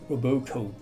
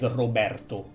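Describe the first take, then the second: First: The R is a soft English r. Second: The R is strongly rolled. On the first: "An English-speaking person, probably would say Roberto" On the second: "with double R"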